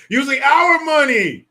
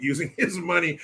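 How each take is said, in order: First: Shouted, high-pitched correction hitting "our"; "our money" blasted high and loud; outraged shout. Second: Said in the usual way. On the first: Real, not acted. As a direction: yell it out, indignant about "our" money.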